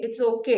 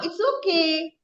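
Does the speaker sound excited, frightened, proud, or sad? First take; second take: frightened; excited. First: The voice sounds frightened and hesitant. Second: The voice sounds excited and lively. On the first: The speaker nervously refuses an offer. "You're frightened" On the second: The speaker is thrilled about it. "You're excited"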